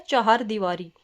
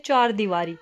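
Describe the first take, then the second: First: चार दीवारी said "cha-haar deevaari"; correct extra syllable. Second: चार दीवारी with one-syllable "chaar"; common mispronunciation. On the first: Teacher correcting students, cha-haar pronunciation of चार दीवारी. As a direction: put a clear "ha" inside चार, cha-haar. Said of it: "शब्द होता है हमारा". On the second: Teacher quoting what students say, one-syllable chaar in चार दीवारी. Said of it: "हम क्या बोलते हैं". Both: Shown as a demonstration.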